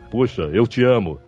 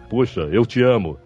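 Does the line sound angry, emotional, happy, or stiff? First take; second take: stiff; stiff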